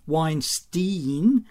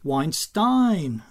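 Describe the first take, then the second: First: The name is said with an American pronunciation. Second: The name is said with a German pronunciation. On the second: "the proper German pronunciation?"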